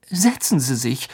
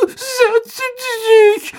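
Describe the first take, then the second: First: Said in the usual way. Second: "Setzen Sie sich" wailed very high and slow; wailing. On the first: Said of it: "sagte Harry höflich". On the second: A narrator's reading. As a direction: stretch out "Sie" in a tearful squeaky wail. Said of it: "jammerte er".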